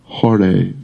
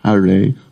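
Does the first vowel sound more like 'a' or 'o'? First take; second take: o; a. First: The first vowel is an O sound, Bengali-style. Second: The first vowel is a plain A sound.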